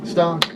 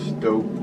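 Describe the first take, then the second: First: The vowel is a short 'ah' sound. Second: The vowel is a long 'oh' sound. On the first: The speaker calls it right. "So it is called stock" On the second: The speaker calls it wrong. "I thought it was called Stoke"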